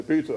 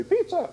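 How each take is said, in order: First: Said in the usual way. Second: Much higher, louder imitated voice; imitating friend. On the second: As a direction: pipe it up high like him.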